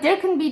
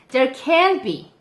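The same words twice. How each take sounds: First: The word can is short and passed over quickly. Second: The word can is long and rises slightly. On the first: Something may be there. "아까는 there can be, there can be 이렇게 넘어갔는데" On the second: Something cannot be there. "부정할 때는 can이 진짜 길어요 ... can이 살짝 또 올라가요"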